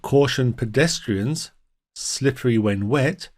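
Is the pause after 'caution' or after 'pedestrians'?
after pedestrians. The pause comes after 'pedestrians'. Pedestrians are warned the ground is slippery. The speaker calls it right. "So we're warning the pedestrians"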